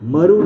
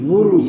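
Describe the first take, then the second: First: The first vowel is an open 'a'. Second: The first vowel is a rounded 'u'. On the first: The speaker calls it wrong. "મરુ નથી" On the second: The speaker calls it right. "મૂરું છે"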